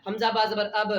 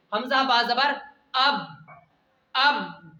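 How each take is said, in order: First: हमजा बा जबर अब with the अब released openly, sound let out of the mouth; wrong way, letting it out. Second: अब held in the mouth, stopped short and doubled; held doubled sound. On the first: Teacher shows the wrong tashdeed reading, अब said openly. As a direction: say अब open and loose, the wrong way. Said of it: "ऐसे नहीं पढ़ना है". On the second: Teacher shows the right tashdeed reading, अब held in the mouth. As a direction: keep the sound of अब inside, clipped on the b. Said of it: "यानी मुंह में ही आवाज रुक जानी चाहिए". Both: Shown as a demonstration.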